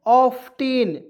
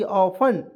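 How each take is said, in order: First: ऑफ्टेन loudly, with the T sounded; common mispronunciation. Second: ऑफन with no T sound; silent T. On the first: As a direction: say ऑफ्टेन as "off-ten". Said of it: "बहुत लोग ऑफ्टेन पढ़ लेते हैं". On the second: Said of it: "टी हम लोग silent रखेंगे". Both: Shown as a demonstration.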